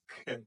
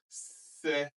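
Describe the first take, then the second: First: The syllable begins with a k sound. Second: The syllable begins with an s sound. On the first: The speaker calls it wrong. "not ke" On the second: The speaker calls it right. "we pronounce the C as S"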